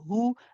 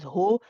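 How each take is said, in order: First: The vowel sounds like a rounded 'u'. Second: The vowel sounds like an open 'o'. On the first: The speaker calls it right. "You want to say hu ... you circle the lips" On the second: The speaker calls it wrong. "we don't want to be recite, reciting this as ho"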